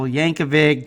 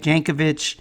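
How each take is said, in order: First: Yankovic said the Weird Al way, a plain English Y; Yankovic, pronounced like the comedy singer; Weird Al pronunciation. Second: Yankovic, pronounced the way Nina's surname sounds; corrected name. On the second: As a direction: correct Yankovic toward Polish, j-sound and -vitch ending. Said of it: "or [name]". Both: Shown as a demonstration.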